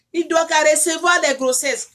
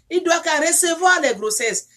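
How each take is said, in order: Both takes have the same delivery.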